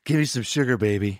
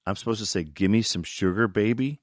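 First: Feed the actor his line, confidently; director's line reading. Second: Mild disbelief, rising at the end; doubtful question. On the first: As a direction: director lightly acting out the hero's line. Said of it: "you're gonna say to her". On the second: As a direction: query the line as if it's absurd. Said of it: "I was like". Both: Retold or imitated.

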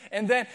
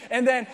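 No difference in how they are said.

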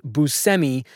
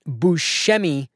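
First: Buscemi with an S sound, boo-SEM-ee; Buscemi, plain S in the middle; anglicized pronunciation. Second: Buscemi with a SH sound, boo-SHEM-ee; Buscemi, SH in the middle; motherland pronunciation. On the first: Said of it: "by the way, it's pronounced Buscemi". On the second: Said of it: "in the motherland". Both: Shown as a demonstration.

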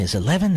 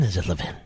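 First: "Levin" stressed on LEV; first-syllable stress. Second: "Levin" stressed on VIN; second-syllable stress. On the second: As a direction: say "Levin" as luh-VIN, lower and softer. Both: Shown as a demonstration.

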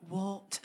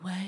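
First: Put-on a one-word "what" in a Scottish accent; brief imitated Scottish accent. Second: Said in the usual way. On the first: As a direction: channel a Scottish great-grandmother's "what". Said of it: "Was that a Scottish accent?". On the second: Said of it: "they would be like".

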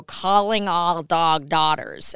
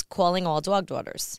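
First: "dog" and "daughters" stretched slowly with open, un-New York vowels; "calling all dog daughters" very slow, each vowel opened and held; slow accent-reduction drill. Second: Thick New York accent, rounded vowels in dog and daughters; old New York accent. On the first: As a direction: draw out "dog daughters" like a careful, loud diction exercise. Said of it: "slowly I had to go". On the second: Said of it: "which started out as". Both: Shown as a demonstration.

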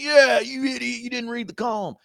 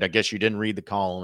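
First: High, put-on mocking jeer; mocking crowd. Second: Said in the usual way. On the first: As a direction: mimic the online pile-on in a squeaky-high voice. Mimicking the online pile-on.

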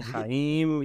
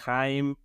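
First: Jaim dicho «ja-ím», en dos sílabas; otra pronunciación. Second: Haim dicho «jáim», en una sílaba; pronunciación popular. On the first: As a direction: parte Jaim en «ja-ím». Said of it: "y que dicen Jaim". (Jaim como «ja-ím», acento al final) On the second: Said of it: "muchos les dicen". (Haim pronunciado «jáim», con jota) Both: Shown as a demonstration.

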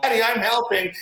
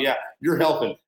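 First: High-pitched little daughter imitation; mock child yelling. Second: Distracted parent. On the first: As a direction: call out like an eager four-year-old, without real volume. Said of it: "and she's yelling". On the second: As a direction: humour the child between sips of coffee. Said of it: "you just look over once in a while".

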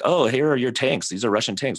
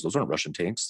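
First: Higher, louder mock accuser; acted-out accusation, pitched up; pointing out evidence. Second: Understated mock denier; offhand retold denial; dismissive denial. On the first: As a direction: present the proof with lifted, emphatic pitch. Voicing accusers in retold exchange. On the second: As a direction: deny it in an unbothered, ordinary pitch. Voicing denier in retold exchange.

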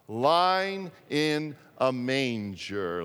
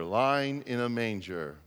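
First: Put-on drawn out for the children to follow; slow group reading. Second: Said in the usual way. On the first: Shown as a demonstration. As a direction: read it slowly together. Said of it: "Let's try and read it together". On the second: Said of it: "repeats the phrase".

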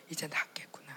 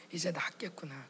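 First: Soft whisper, stress on 이제; whispered relief. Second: Soft whisper, 이제 stressed, falling end; whispered relief. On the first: Inner relief thought. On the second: Inner relief thought repeated. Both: Retold or imitated. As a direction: breathe it out in quiet relief. (조용히 안도하며 속삭임)

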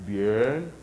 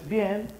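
First: Low, soft, drawn-out and rising; impressed approval. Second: Short, quiet, higher-pitched nod; brief understated approval; mild approval. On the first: Listener reacting to ten auditorium shows, impressed. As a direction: savour it slowly, deeper and quieter. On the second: Listener reacting to five auditorium shows, mildly approving. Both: Acted.

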